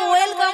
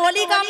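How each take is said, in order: First: The first syllable sounds like 'wel'. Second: The first syllable sounds like 'oli'. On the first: The speaker calls it right. "ওয়েলকাম হবে" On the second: The speaker calls it wrong. "ওটা তো ওলি কাম নয়"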